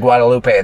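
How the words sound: The name is pronounced the Spanish way. The name is treated as a Spanish word. The speaker calls it right. "it's a Spanish word, I'm going to say Guadalupe"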